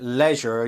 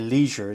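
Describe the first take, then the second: First: Leisure is said with a non-American pronunciation. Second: Leisure is said with an American pronunciation.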